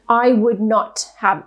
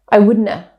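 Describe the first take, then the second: First: Every word is said fully and separately. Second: The words run together; the t and v drop.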